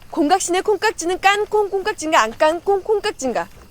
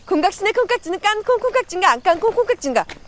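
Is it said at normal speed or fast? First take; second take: normal speed; fast. First: It is said at a normal speed. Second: It is said very fast.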